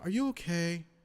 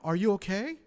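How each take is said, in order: First: The pitch stays lower and falls at the end. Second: The pitch rises high like a question.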